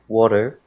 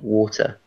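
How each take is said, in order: First: The middle T sounds like a soft D. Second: The middle T is a clear T sound. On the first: "an American would say butter and water" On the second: "in British English we say butter and water"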